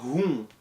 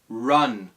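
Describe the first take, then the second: First: The R is a Portuguese R sound. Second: The R is a curled English R sound. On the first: The speaker calls it wrong. "Ele usa o R do português" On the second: The speaker calls it right. "O R é R"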